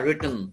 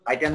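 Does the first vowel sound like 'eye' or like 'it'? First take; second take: it; eye. First: The first vowel sounds like 'it'. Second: The first vowel sounds like 'eye'. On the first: The speaker calls it right. "রিটেন a poem" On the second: The speaker calls it wrong. "রাইটেন না রিটেন"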